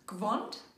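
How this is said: It has one syllable with an o vowel.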